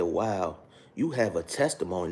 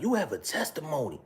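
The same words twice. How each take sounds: First: Said in the usual way. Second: Much higher mock pastor voice; imitating father-in-law. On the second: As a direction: pitch way up to mimic him. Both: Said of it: "This is how her father talked".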